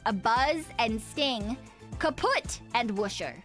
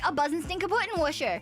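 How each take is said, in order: First: It is said slowly with the parts separated. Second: It is said quickly as one run-together word. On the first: It is revealed as ordinary English words. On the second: It sounds like one long German word.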